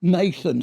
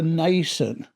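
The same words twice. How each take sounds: First: Nathan said NAY-thun, with a clear th; corrected Nathan. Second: Nathan said as NAY-sun, with an s sound; mispronounced Nathan. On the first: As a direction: Nathan fixed with a proper th sound. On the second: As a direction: Nathan with the th said like s, as a slip. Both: Shown as a demonstration.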